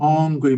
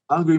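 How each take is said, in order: First: The word is drawn out with a long final vowel. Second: The word is said plainly with a short ending. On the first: The need is so great that nothing satisfies it. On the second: The need is mild and easily satisfied.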